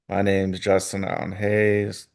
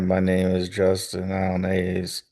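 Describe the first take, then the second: First: It is said in a lively, varied voice. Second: It is said in a flat, monotone voice. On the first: The speaker calls it right. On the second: The speaker calls it wrong.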